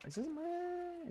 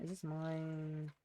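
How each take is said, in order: First: High, slow, puzzled; surprised question. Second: Said in the usual way. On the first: Real, not acted. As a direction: rise up in surprise.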